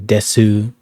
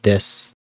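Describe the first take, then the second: First: The word ends with an audible final vowel. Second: The word ends without a final vowel. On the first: The speaker calls it wrong. "You don't say desu" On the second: The speaker calls it right. "It's just des"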